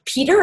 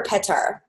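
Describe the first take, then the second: First: Peter said PEE-ter, long ee; mistaken English pronunciation. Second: Petar said PET-ar, short e; name pronunciation check. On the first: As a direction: say Peter with a long ee and weak ending. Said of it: "Sorry, I've been calling you Peter". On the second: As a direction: say Petar with a short e and open ar ending. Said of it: "is it Peter or Petar". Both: Shown as a demonstration.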